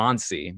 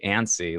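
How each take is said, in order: First: It is said in a more formal-sounding way. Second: It sounds like the English word antsy. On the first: The speaker calls it right. "apparently, Annecy, maybe that's a bit more, uh, you know, formal sounding" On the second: The speaker calls it wrong. "it doesn't sound right when I say it that way. Annecy, like uh, like you're jittery"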